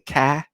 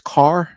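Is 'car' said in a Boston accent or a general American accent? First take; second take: Boston; general American. First: The word is said in a Boston accent. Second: The word is said in a general American accent. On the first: "People in Boston say" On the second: "when it's car"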